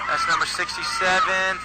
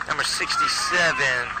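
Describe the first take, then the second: First: Excited shout. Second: Said in the usual way. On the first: Real, not acted. Shouting returner's number.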